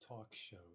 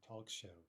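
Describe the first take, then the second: Both takes have the same delivery.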